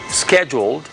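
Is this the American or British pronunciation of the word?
American. The word is said the American way. "One is the American way"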